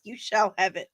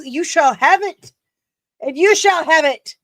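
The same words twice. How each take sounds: First: Said in the usual way. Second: Higher, louder, grand proclamation voice; mock royal decree. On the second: Vlogger promising a fan a gift, in a mock-regal higher voice. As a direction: grant the wish like a hammy queen.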